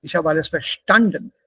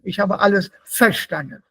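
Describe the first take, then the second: First: Verstanden with STAN stressed; light VER, strong STAN in verstanden; stress on second syllable. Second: Verstanden wrongly punched on VER; misplaced stress on VER. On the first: Teacher correcting students, verstanden stressed on STAN. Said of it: "It should be in the second half". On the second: Teacher showing wrong pronunciation, verstanden stressed on VER. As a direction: hit the first syllable of verstanden. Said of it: "das ist nicht richtig ausgesprochen". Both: Shown as a demonstration.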